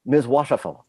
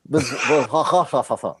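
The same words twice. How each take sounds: First: Washafel said with no R at all, deadpan; lightly imitating a French android dropping the R in Washafel; R-less French Washafel. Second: Washafel slowly dissolving into laughter, no R; laughing while repeating the R-less Washafel; laughing through Washafel. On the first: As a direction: say Washafel the way he can't handle the letter R. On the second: Retold or imitated. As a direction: try to say Washafel and crack up. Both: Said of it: "he's constantly calling him".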